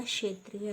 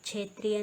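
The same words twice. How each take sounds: First: क्षेत्रीय starting with "sh", kshetriya; correct pronunciation. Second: क्षेत्रीय starting with "chh", chhetriya; wrong pronunciation. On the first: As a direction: say क्षेत्रीय as (k)shetriya. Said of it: "होता है". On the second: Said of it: "नहीं होता". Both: Shown as a demonstration.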